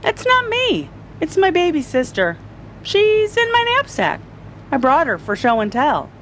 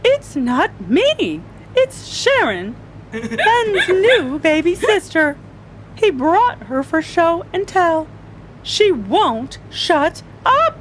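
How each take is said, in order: First: Put-on high-pitched kid defending himself; child's squeaky protest, easing at the end; protesting little boy. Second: High, slow, whiny protest; flustered teacher at wits' end; exasperated teacher. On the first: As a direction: plead innocence in a small boy's high voice. Ben explains himself to teacher. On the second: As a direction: plead innocence, dragging out each word. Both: A narrator's reading.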